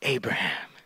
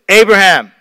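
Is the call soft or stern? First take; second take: soft; stern. First: It is called softly and soothingly. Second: It is called sternly, like an alarming summons.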